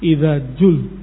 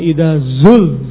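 First: The word after idza starts with a j sound. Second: The word after idza starts with a z sound. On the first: The speaker calls it wrong. "diganti menjadi jim" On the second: The speaker calls it right.

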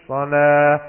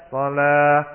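Both takes have the same delivery.

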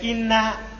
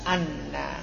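First: The word begins with an 'i' vowel. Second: The word begins with an 'a' vowel. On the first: "maka dibaca inna" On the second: "bisa juga dibaca apa? Anna"

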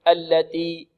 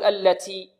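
First: The t is produced with no breath release. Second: The t is over-breathy with a hissing s-like sound. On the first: "يأتي بالتاء بدون همس، يقول التي التي خطأ" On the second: "بعض الطلاب يبالغون في الهمس، يقول التي تي تي"

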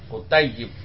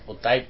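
First: The word is pronounced in its full form. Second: The word is pronounced in a shortened form. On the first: This is the correct standard form. The speaker calls it right. "itu yang benar kutayyib" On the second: This is the casual conversational form. The speaker calls it wrong. "karena ada bahasa percakapan biasanya disingkat"

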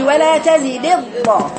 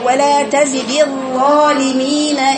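First: The ظ sound is cut off abruptly. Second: The ظ sound flows on continuously. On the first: The speaker calls it wrong. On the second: The speaker calls it right.

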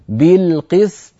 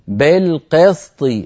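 First: The vowels are a full, clear 'i' sound. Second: The vowels lean toward an 'e' sound. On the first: The speaker calls it right. "اكسر الباء جيدا، اكسر القاف جيدا، هكذا" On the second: The speaker calls it wrong. "ولا تقولي بالقسط، بالقسط هذه إمالة وليست كسرة"

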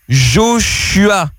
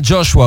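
First: The name is said with a French accent. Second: The name is said with an English accent. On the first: "J'ai du mal à prononcer ton prénom" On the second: "t'as l'accent anglais, du coup, tu peux"

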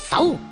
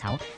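First: The word is said with strong, forceful emphasis. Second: The word is said plainly, without extra force. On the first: The speaker calls it right. "用一种好好强嘅语气啊……应该要系重音啲嘅" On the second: The speaker calls it wrong. "即系唔系手"

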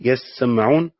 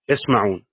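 First: The s and m sounds are doubled. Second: The s and m sounds are single. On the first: They strain to listen. "قراءة التشديد" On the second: They hear. "قراءة التخفيف"

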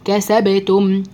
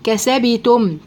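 First: The b has a light bounce leaning toward a. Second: The b is given a full i-like vowel. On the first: The speaker calls it right. "القلقلة تميل الى الفتح" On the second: The speaker calls it wrong. "الباء كانت ساكنة وانا حركتها"

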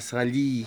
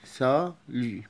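First: The final vowel is a plain 'ee' sound. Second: The final vowel is between 'oo' and 'ee'. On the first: The speaker calls it wrong. "ولا سالي غلط" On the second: The speaker calls it right. "وسط بين الأو والإي"

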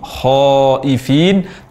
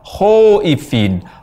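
First: The first vowel is an open a, lips unrounded. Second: The first vowel sounds like o, lips rounded. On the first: The speaker calls it right. "tanpa membulatkan bibir" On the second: The speaker calls it wrong. "terucap khaifin berbunyi o"

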